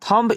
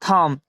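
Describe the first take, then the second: First: The word ends with an audible b sound. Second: The word ends on the m sound. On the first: The speaker calls it wrong. "थम्ब इसे नहीं पढ़ेंगे" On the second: The speaker calls it right. "यहाँ बी silent रहता है"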